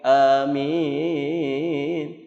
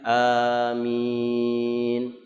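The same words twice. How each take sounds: First: The pitch swings up and down several times. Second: Both vowels are lengthened with a steady pitch. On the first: It treats the word playfully. The speaker calls it wrong. "Jangan dimain-mainin, dilenggok-lenggokin" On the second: It is read as it ought to be. The speaker calls it right. "a-nya dipanjangkan, min-nya juga dipanjangkan"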